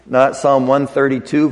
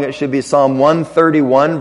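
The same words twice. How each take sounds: First: Said in the usual way. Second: "thirty-one" stressed as the correction, rising; corrected reference. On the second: Shown as a demonstration. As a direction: lean on "thirty-one" to fix the number. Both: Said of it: "that's a typo in your notes".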